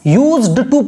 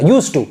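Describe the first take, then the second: First: A d sound is heard before 'to'. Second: No d sound is heard before 'to'. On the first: The speaker calls it wrong. "ऐसे यूज्ड टू पूरा नहीं पढ़ेंगे" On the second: The speaker calls it right. "डा silent रहेगा"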